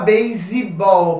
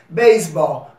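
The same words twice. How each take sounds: First: An 'ee' vowel is added after base. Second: No vowel is added after base. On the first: The speaker calls it wrong. "você não fala baseball, porque termina em E" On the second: The speaker calls it right. "Então você diz baseball"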